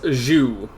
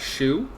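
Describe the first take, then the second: First: The name begins with a zh sound. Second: The name begins with a sh sound. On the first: "like the soup that you dip your your sandwiches in" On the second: "comes off as shoe, like the shoe you wear"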